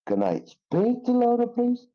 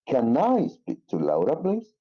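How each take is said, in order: First: The word speak is stressed. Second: The word I is stressed. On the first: It focuses on the action of speaking. "Stress on the word uh, speak" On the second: It focuses on the speaker's personal request and need. "Stress on the word I"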